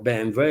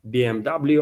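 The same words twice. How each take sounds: First: The letters are said with German letter names. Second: The letters are said with English letter names.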